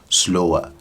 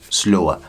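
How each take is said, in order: No difference in how they are said.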